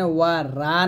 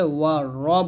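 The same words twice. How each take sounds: First: ওয়া রা with a thin r and open "aa"; ওয়া রা, the second syllable thin and open; thin r, wrong way. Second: ওয়া র with a thick, rounded r; ওয়া র, the second syllable dark and rounded; heavy r. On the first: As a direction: say ওয়া রা with a light, unrounded r. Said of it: "ওয়া রা না বলে". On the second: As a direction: say ওয়া র full-mouthed, r sounding like "ro". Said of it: "র মোটা করে". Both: Shown as a demonstration.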